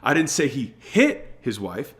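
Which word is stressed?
hit. The word "hit" is stressed.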